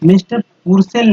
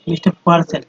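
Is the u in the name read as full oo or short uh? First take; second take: full oo; short uh. First: The u in the name is a full oo. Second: The u in the name is a short uh. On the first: The speaker calls it wrong. "नहीं" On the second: The speaker calls it right. "क्योंकि यू को अ पढ़ते हैं"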